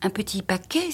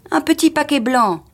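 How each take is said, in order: First: Incredulous echo, softer, rising on paquet; exclaimed question. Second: High, louder, falling at the end; insistent statement. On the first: A narrator's reading. Wife echoing her husband about the packet, incredulous question. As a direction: query it in disbelief without shouting. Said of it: "s'écria madame Foster". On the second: Acted. Husband describing the lost gift to his wife, insistent. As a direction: spell it out emphatically.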